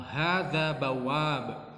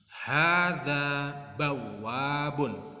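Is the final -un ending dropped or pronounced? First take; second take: dropped; pronounced. First: The last word stops on a bare consonant. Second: The last word ends with a full -un syllable.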